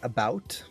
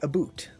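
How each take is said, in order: First: It is said in a non-Canadian accent. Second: It is said in a Canadian accent. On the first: "a lot of people say" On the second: "Canadians say aboot"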